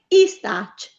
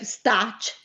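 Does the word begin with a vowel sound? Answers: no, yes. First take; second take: yes; no. First: An extra vowel is said before stac. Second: No vowel is said before stac. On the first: The vowel helps after a word ending in a consonant. The speaker calls it right. "io ho necessità di mettere una vocale davanti a stac" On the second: Leaving out the vowel is not a serious error. The speaker calls it wrong. "non riusciamo a pronunciarlo bene"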